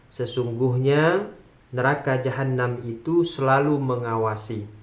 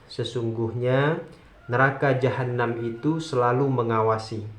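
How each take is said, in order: No difference in how they are said.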